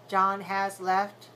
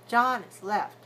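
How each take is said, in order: First: The word 'has' is full and as long as others. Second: The word 'has' is short and weak between longer words. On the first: The speaker calls it wrong. "that's very bad timing, very bad stress" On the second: The speaker calls it right. "So long, short, long"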